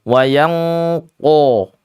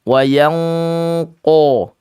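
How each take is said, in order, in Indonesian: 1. Huruf qaf diucapkan dengan bibir membulat. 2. Huruf qaf diucapkan dengan bibir membulat.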